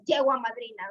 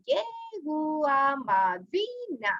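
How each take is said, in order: First: It is said with a native Spanish accent. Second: It is said with an English accent. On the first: The speaker calls it right. "as we say in Spanish" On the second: The speaker calls it wrong. "according to the English that they know"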